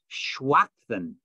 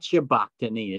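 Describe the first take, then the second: First: The middle consonant is a soft w sound. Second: The middle consonant is a hard b sound. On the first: The speaker calls it right. "The B is soft and becomes a W or a V sound" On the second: The speaker calls it wrong. "Not Shabakhtani, as most people pronounce it"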